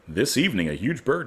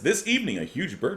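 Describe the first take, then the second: First: It is read in a put-on announcer voice. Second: It is read in the speaker's ordinary voice. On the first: The speaker calls it right. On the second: The speaker calls it wrong.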